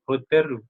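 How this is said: The word ends in an r sound plus u. "itu jadinya hoteru"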